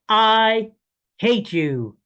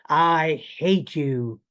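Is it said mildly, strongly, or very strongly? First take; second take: very strongly; strongly. First: It is said with the most force. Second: It is said with stronger force.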